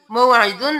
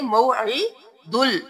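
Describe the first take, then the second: First: मौइदुन ending on a plain n sound; wrong reading. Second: मौइदुल ending on a clear l, slowly; correct reading. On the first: Teacher warning students against reading मौइदुन. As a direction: say मौइदुन with a nasal nun ending. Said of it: "मौइदुन नहीं करेंगे". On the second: Teacher showing students the correct reading मौइदुल. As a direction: close मौइदुल with the lam. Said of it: "दाल पे इस्लाम दुल". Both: Shown as a demonstration.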